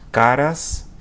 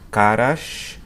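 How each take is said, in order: First: It is said in a standard Brazilian accent. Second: It is said in a Rio de Janeiro accent.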